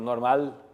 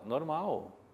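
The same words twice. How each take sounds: First: The final sound is a clear L. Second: The final sound is a U-like vowel. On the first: The speaker calls it wrong. "é muito difícil que alguém fale normal" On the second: The speaker calls it right. "O som é de U"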